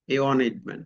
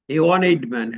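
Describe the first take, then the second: First: Said in the usual way. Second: one hit louder as wan; stressed demo. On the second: Shown as a demonstration. Teacher stressing one to show the sound. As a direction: lean on one in A one এইড man. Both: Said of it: "উচ্চারণটা হচ্ছে কি".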